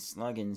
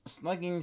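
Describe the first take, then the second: First: "slugging" as "sluggin'" in a southern accent. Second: "Slugging" with a clear -ing ending, drawn out slow; slugging with full ing. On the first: Vlogger showing how a southern accent says "slugging". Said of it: "slugging sounds more southern". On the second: Vlogger comparing two ways to say "Slugging", full -ing. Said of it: "Which sounds better, slugging or slugging". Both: Shown as a demonstration.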